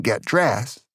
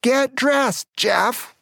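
First: A touch of irritation, still restrained; firm but not yet yelling; mildly annoyed. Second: Much higher, sharp mother's shout; angry yell. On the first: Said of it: "She got just a little angry". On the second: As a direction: yell it at the stubborn kid. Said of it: "she got really angry and yelled at me". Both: Retold or imitated.

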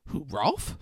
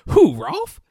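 First: Lightly puzzled, rising "Who, Rolf?"; puzzled question. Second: Much higher and louder, "Who, Rolf?" in disbelief; incredulous. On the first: Brother asked about Rolf's teen years, mildly puzzled. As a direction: ask "Who, Rolf?" with mild surprise. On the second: Brother mocks the question about Rolf, loud and incredulous. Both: Retold or imitated.

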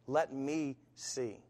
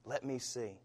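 First: Slow, softer, drawn-out plea; God's faint voice repeating gently, slowly. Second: Soft, gentle plea; God's faint voice calling softly. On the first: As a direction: let it fade like a far whisper. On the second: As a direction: hush it like a distant call. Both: Acted. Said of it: "a faint voice".

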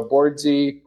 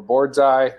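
First: "Boardsy" with a long ee at the end; Boardsy rhyming its last syllable with "see"; name ending in "zee". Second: "Boardseye" with a long i at the end; name ending in "eye". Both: Shown as a demonstration. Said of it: "however people say it".

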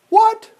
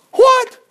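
First: Incredulous question. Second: A very high, loud burst of disbelief; stunned king hearing of the plot; shocked king. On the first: King repeats in disbelief. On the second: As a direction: blurt it out, stunned. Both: Acted.

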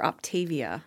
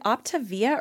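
First: "Optavia" said op-TAY-vee-uh; op-TAY-vee-uh pronunciation. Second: "Optavia" said op-tuh-VEE-uh; op-tuh-VEE-uh pronunciation. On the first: Offering the other reading to her friend, "Optavia" as op-TAY-vee-uh. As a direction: stress a long TAY in "Optavia". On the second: Checking a brand name with her friend, "Optavia" as op-tuh-VEE-uh. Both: Shown as a demonstration. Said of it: "I never know what to say".

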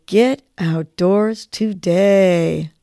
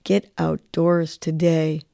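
First: Very slow, drawn out on the breath; slow on the exhale. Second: Slow, spoken affirmation. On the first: Host repeats the nudge with listeners, slow exhale. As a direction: breathe the words out slowly. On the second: Host leads the daily nudge, slow affirmation. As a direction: say it slowly like a mantra. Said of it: "So let's say this". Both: Shown as a demonstration.

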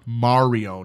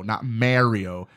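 First: Mario said as MAR-io, open ah; Mario with a broad "mah" first vowel; correct Mario. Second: Mario said as MAIR-io, slow and low; Mario with a flat "mair" first vowel; disliked Mario. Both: Shown as a demonstration. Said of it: "I hate when people pronounce it Mario".

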